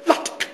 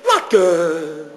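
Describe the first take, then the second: First: The word ends crisply on a consonant. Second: The word trails off into an indistinct vowel. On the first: The speaker calls it right. "pronounce the word the way it is spelled" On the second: The speaker calls it wrong. "The word flows off into an indistinct vowel"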